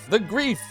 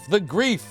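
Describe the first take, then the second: First: The name is said like the word 'grief'. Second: The name is said like the word 'grief'.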